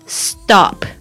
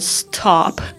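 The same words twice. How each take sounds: First: The t is soft, close to a d. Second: The t has a strong puff of air. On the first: The speaker calls it right. "STOP 怎么念呢？" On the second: The speaker calls it wrong. "希望不要念成stop，这样很奇怪"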